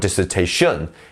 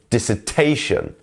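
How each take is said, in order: First: The main stress falls away from 'ta'. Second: The main stress falls on the 'ta' syllable. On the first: The speaker calls it wrong. "or dissertation" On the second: The speaker calls it right. "is dissertation"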